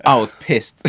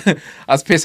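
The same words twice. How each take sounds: First: Said through a short laugh. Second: Repeated, higher and laughing more; laughing harder. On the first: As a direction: chuckle as you admit it. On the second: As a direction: let the laugh take over the repeat. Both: Real, not acted. Laughing retelling missed celebrity.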